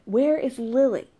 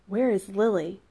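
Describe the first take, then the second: First: "Where is Lily" louder, higher and slower; insistent repeat. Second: Said in the usual way. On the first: A narrator's reading. Raphael repeating "Where is Lily" to Zachary, insistent. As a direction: press "Where is Lily" hard, falling at the end. Repeats it, point being missed.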